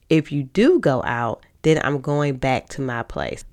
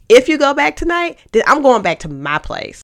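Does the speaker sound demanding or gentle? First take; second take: gentle; demanding. First: It is said in a calm, gentle tone. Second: It is said in a harsh, demanding tone.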